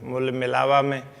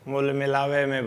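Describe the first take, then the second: First: The second word ends in an 'a' sound. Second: The second word ends in an 'e' sound. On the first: This is the standard form. "होता है शुद्ध" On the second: This is how people say it in the regional way of speaking. "बोलेंगे"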